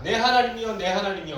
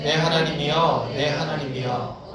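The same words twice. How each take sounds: First: Higher, urgent call to God; crying out. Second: Measured, restrained scripture recitation; reading in unison. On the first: Psalmist calling twice on God, desperate cry. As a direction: call out desperately, pitched up from the first word. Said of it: "소리 지르면서 읽어야 돼". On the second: Congregation reading the psalm together, restrained recitation. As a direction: read it evenly and slowly, without crying out. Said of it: "이렇게 읽으면 안 돼". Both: Shown as a demonstration.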